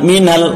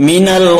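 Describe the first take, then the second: Both takes have the same delivery.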